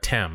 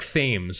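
First: The name is said the British way. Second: The name is said the American way. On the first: "are we going to be British and call him Eric Thames?" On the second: "it's Eric Thames, right?"

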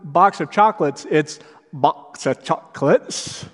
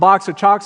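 First: It is said with an imitated character inflection. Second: It is said in an ordinary, plain voice. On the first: The speaker calls it right. "I heard the inflection from someone" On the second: The speaker calls it wrong. "It wasn't just box of chocolates"

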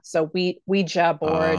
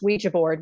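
First: It is said slowly, with a clear final syllable. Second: It is said fast, with a reduced final syllable. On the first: "the J-A is generally pronounced more like Ja" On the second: "as you say it fast"

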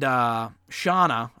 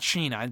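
First: The first vowel sounds like 'ah'. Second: The first vowel sounds like 'ee'. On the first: The speaker calls it right. "I think is how you pronounce it" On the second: The speaker calls it wrong. "Not Sheena"

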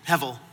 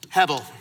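First: The middle consonant is a V sound. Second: The middle consonant is a B sound.

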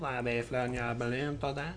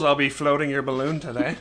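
First: It is said in a put-on French accent. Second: It is said in the speaker's ordinary accent.

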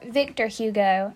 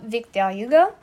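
First: The name is said with an American pronunciation. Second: The name is said with a French pronunciation.

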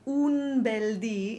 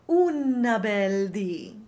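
First: The word 'un' ends in a plain n sound. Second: The word 'un' ends with an added vowel. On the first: "if you choose to sing un bel di" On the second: "make sure you're not saying una bel di"

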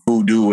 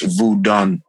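First: The word ends with a 'doo' sound. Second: The word ends with a 'dun' sound. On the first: This is the name Americans use. The speaker calls it wrong. "the Americans call it voodoo" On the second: This is the name within the culture. The speaker calls it right. "It's not voodoo. It's voodun"

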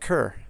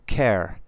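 First: The name rhymes with cur. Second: The name rhymes with care, the Scottish way.

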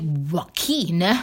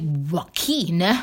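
First: The name is said with a Spanish-style pronunciation. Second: The name is said with a Spanish-style pronunciation.

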